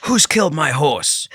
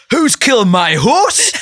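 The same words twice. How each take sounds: First: Slow, higher delivery of a script line; measured mock shout, a little raised; mildly raised shout. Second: Loud, high, drawn-out Geordie yell; hammed-up Geordie cry to the camera; broad Geordie shout. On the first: Shown as a demonstration. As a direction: call it out slowly, only half shouting. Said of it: "shout and go". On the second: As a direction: bellow it slowly in thick Geordie. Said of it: "in really broad Geordie".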